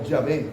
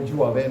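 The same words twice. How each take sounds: First: "Yahvé" in two syllables, ya-VÉ; "Yahvé" with a plain "ya" start, no "u" glide; pronunciation demo. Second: "Yahvé" with an added "u" glide, yu-a-VÉ; variant pronunciation. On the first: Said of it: "suena así como". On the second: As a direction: stretch "Yahvé" toward three syllables, yu-a-VÉ. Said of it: "como algo así". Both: Shown as a demonstration.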